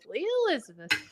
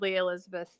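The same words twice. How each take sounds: First: The name is said warmly and affectionately. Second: The name is said sternly, like a warning.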